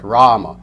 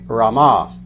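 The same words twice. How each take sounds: First: The first vowel is long, the last short. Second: The last vowel is drawn out long. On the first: It names a male divine incarnation. "the first A is long, the second A is short" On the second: It names a goddess. "now the last A is long"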